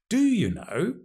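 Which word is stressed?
do. The stress falls on the word do. The asker doubts that the listener really knows. "Emphasizing the do, strong form"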